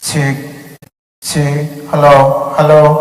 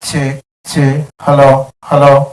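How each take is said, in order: First: The voice sounds echoey with reverb and delay. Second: The voice sounds dry without reverb or delay. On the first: "ഇപ്പൊ ഡിലേയും reverb മോണിറ്ററിലേക്ക് വന്നിട്ടുണ്ട്" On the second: "ഇപ്പൊ reverb delay ഒന്നും മോണിറ്ററിലേക്ക് വരുന്നില്ല"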